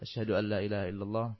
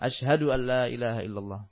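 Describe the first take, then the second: First: It is said in a very soft, quiet voice. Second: It is said in a loud, ringing voice. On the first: "dengan suara yang sangat pelan" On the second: "diulang lagi dengan suara yang lantang"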